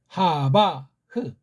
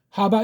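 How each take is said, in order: First: A final consonant sound is voiced after the word. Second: The word ends without any extra consonant sound. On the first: Every written consonant is sounded. The speaker calls it right. "제가 하나하나씩 자음을 다 소리를 내봤어요" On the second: A written consonant is left silent. The speaker calls it wrong. "이것도 또 빼요"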